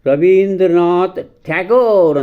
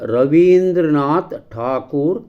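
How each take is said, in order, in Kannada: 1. ಉಪನಾಮವನ್ನು English ರೂಪದಲ್ಲಿ ಹೇಳಲಾಗಿದೆ. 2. ಉಪನಾಮವನ್ನು ಮೂಲ ರೂಪದಲ್ಲಿ ಹೇಳಲಾಗಿದೆ. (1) "ಬ್ರಿಟಿಷರು ಮಾಡಿದಂಥ ಅಪಭ್ರಂಶ ಅದು" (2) "ಸರಿಯಾದಂಥ ಉಚ್ಚಾರ"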